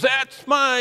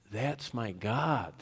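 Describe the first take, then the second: First: Much higher, louder mock cheer from the stands; proud dad's cheer. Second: Slow and softer "That's my God", each word settled; quiet worshipful declaration. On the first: Proud dad in the stands cheering his child, high loud shout. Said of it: "that dad in the stands that goes". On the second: Shown as a demonstration. Worshipper declaring his God in worship, slow and soft. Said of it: "we say in worship".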